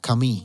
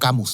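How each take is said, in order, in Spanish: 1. El nombre se dice con sonidos franceses. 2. El nombre se dice con sonidos españoles. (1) "ayer bien pronunciado" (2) "yo digo Camus nomás"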